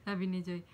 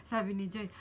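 The two takes are said the same way.

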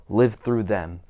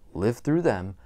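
No difference in how they are said.

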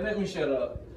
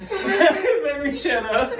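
First: Said in the usual way. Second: Laughing it out, slowed and high; cracking up while repeating himself. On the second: Real, not acted. Vlogger laughing at his own rambling.

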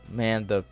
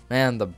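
No difference in how they are said.

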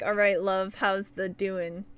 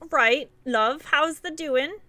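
First: Light mock British accent, slower on the question. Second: Light mock British accent, rising on the question; a second half-hearted go at a British accent. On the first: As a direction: tease UK chat with a half-hearted British accent. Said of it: "UK people be all like". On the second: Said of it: "I hate doing the accents".

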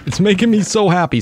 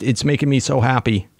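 First: Higher, gushing repeat of it's making me so happy; giddy happy exclamation, pitched up; delighted. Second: Said in the usual way. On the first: Real, not acted. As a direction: let the joy spill over on the repeat.

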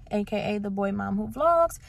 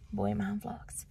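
First: Said in the usual way. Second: Soft unvoiced whisper of Boy Mom Vlogs. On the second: Shown as a demonstration.

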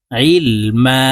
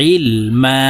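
First: Said in the usual way. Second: Ilma sung in a melodic Quranic chant; chanted, Ilma intoned like recitation. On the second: Shown as a demonstration. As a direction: chant Ilma with a drawn, sung final vowel. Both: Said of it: "বানান করে বলে দিচ্ছি".

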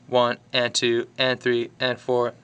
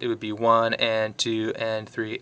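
First: Lilting swung count, long-short. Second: Said in the usual way. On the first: Shown as a demonstration. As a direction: lean into the swing feel. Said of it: "in music that swings". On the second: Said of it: "if this was straight".

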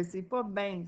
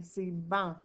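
First: Put-on "ben" said with an open è nasal, as the child said it; wrong form ben. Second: "ban" said with a back nasal an, like "banc"; correct ban. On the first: Teacher repeating a pupil's mistake, correcting. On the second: Teacher giving the right reading to the class. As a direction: say "ban" with the an sound. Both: Shown as a demonstration.

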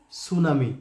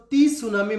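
First: "সুনামি" starting straight on s, no t; silent T. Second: "টি সুনামি" with the letter T named first; spelling read-out. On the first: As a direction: say "সুনামি" as su-na-mi, dropping the T. ("সুনামি", টি উহ্য রেখে স দিয়ে শুরু) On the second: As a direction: say a separate "tee" before "সুনামি". ("টি সুনামি", আলাদা করে টি অক্ষরটা বলে) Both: Shown as a demonstration. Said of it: "পুরোটার উচ্চারণ হচ্ছে".

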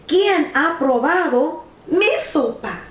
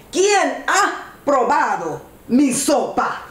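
First: Higher-pitched medium bear voice. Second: Mild big bear shout, emphatic; lightly voiced big bear calling out; big bear's cry. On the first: Middle bear asks about the soup, higher character voice. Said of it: "La osa mediana dice". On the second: Big bear demands who tasted the soup, mild shout. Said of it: "El oso grande grita en voz alta". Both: A narrator's reading.

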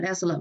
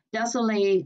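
First: "desolate" with a weak "lut" last syllable; corrected reduced ending. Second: "desolate" ending like the word "late"; mistaken -late ending. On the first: Teacher correcting herself, "desolate" with a reduced last syllable. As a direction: say "desolate" ending in a schwa, not "late". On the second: Teacher trying a rare word, "desolate" ending in "late". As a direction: say "desolate" with a full "lay" last syllable. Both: Shown as a demonstration. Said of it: "Đọc là desolate mới đúng".

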